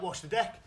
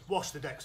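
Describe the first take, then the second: First: A mild demo shout of the command; pirate-deck order called across the pitch. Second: Said in the usual way. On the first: Shown as a demonstration. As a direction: call "Wash the deck" out to the kids like an order. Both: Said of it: "if you ever hear me shout".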